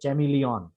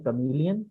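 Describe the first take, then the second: First: The word begins with a ch sound. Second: The word begins with a k sound. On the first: The speaker calls it wrong. "Wrong pronunciation है जो लिखा हुआ है" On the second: The speaker calls it right. "Correct pronunciation है कमीलियन"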